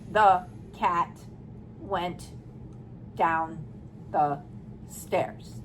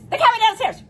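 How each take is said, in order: First: Each word is said flatly and separately, like a robot. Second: The words are rushed out too quickly. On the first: "That's a robot" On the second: "And you don't read like this"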